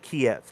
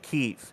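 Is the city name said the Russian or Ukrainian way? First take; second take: Russian; Ukrainian. First: The name is said the Russian way. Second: The name is said the Ukrainian way. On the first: This is how the invading country says it. The speaker calls it wrong. "Russians pronounce it Kiev" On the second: This is how the local people say it. The speaker calls it right. "they pronounce it Kyiv"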